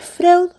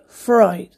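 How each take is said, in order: First: The name is read as it is spelled. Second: The name is said with an 'oi' sound. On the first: The speaker calls it wrong. "se escribe Freud" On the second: The speaker calls it right. "pero se dice Freud"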